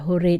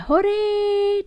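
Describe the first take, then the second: First: The word is said short and clipped. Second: The word is drawn out in a cheerful voice. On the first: "dengan nada pendek" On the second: "dengan nada panjang dan suara riang"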